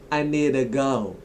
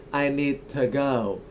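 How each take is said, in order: First: 'To' is reduced to a weak 'ta'. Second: The same.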